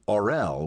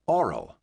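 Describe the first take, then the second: First: The stress is on the second syllable. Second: The stress is on the first syllable. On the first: The dragon is mature. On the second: The dragon is a hatchling.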